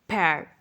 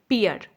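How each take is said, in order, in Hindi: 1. स्वर air के खुले e जैसा सुनाई देता है। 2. स्वर ee के बाद uh जैसा सुनाई देता है। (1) "जो सही प्रोनाउंसिएशन है वो है पैर" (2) "नाशपाती को लोग पढ़ते हैं पियर"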